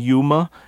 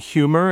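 First: The word starts with a Y sound, no H. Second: The word starts with an audible H sound. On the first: "that H disappears before the Y sound" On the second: "instead of humid and humor"

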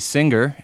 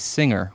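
First: A hard G sound follows the ng. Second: No hard G sound follows the ng. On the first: "You say singer" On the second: "most people say singer, with no hard G sound between the ng and the R"

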